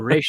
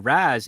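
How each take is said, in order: First: The name is said as 'Resh'. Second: The name is said as 'Raz'. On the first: This is the traditional, proper form. The speaker calls it right. "properly pronounced" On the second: This is a common colloquial form. The speaker calls it wrong. "considered a peasant pronunciation"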